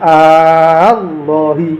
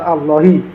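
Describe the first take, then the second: First: The first vowel is drawn out long. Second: The first vowel is said short.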